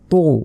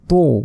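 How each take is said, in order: Both takes have the same delivery.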